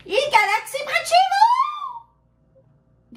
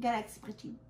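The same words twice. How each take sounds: First: High, slow, drawn-out title call; announcer voice. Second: Said in the usual way. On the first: Acted. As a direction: announce it like a trailer. (annonce de bande-annonce, lente et aiguë)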